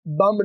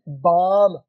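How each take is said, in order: First: The vowel is short, like in 'bum'. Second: The vowel is long and open, like 'bahm'. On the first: The speaker calls it wrong. "बम नहीं होता" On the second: The speaker calls it right. "अंग्रेजी में ये जो B O M B है वो है बाम"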